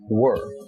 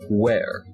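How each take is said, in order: First: The vowel rhymes with 'fur'. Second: The vowel rhymes with 'hair'. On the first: The speaker calls it right. "commonly mispronounced words include the word were" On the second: The speaker calls it wrong. "which people pronounce as where"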